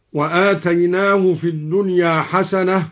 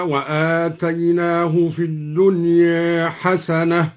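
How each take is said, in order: First: Said in the usual way. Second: Slow recitation, final a of الدنيا tilted toward e; slow tartil with a half-tilted vowel ending الدنيا; taqlil on الدنيا. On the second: Shown as a demonstration. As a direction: chant it slowly, softening the end of الدنيا to "dunye". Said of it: "قلل الدوري الدنيا هكذا".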